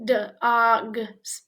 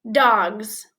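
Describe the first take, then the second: First: "Dogs" broken into d, og, s with gaps; sounded out. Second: Said in the usual way. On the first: Shown as a demonstration. Teacher helps learners read, "Dogs" split into separate sounds. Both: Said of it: "Read this word".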